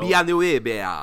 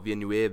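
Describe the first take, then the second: First: Villeneuve said slowly with a Spanish accent, a bit louder; Spanish-sounding accent. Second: French pronunciation. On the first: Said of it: "still saying it with a Spanish accent". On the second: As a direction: try Villeneuve with a French accent. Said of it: "That's how you say it in French". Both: Shown as a demonstration.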